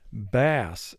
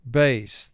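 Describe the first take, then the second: First: The vowel rhymes with the one in 'class'. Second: The vowel rhymes with the one in 'face'. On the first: It names a kind of fish. "another way that we can pronounce this word" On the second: It names a low-pitched guitar or voice. "the A in bass is representing its long sound"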